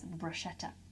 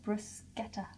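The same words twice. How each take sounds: First: The middle consonant is said as 'sh'. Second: The middle consonant is said as 'sk'. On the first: The speaker calls it wrong. "people do pronounce this as bruschetta, but it is not pronounced bruschetta" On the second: The speaker calls it right. "So it's pronounced bruschetta"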